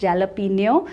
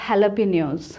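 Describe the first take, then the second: First: The word is pronounced as it is spelled. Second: The word is not pronounced as it is spelled. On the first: The speaker calls it wrong. "you will not pronounce it as jalapeno" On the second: The speaker calls it right. "You will pronounce it as jalapenos"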